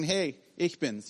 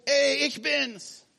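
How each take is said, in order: First: Said in the usual way. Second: High, slow call across the water. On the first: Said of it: "es muss nicht so weit weg". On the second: Pretend. Jesus calls across the stormy water to his disciples, calling out. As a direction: call out slowly to be heard far off. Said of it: "er ruft".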